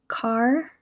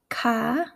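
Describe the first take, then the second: First: It is spoken in a Midwestern accent. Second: It is spoken in an East Coast accent. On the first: "And now in my Midwestern accent" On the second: "here are some examples in an East Coast accent"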